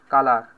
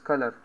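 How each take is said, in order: First: It is said with an Indian accent. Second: It is said with an American accent. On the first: The speaker calls it wrong. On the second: The speaker calls it right.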